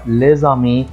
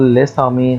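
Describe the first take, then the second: First: The words are linked with a z sound. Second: The words are linked with an s sound. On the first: The speaker calls it right. "فتنطق زد" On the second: The speaker calls it wrong. "ما ينفعش اقول ليسامي، خطأ"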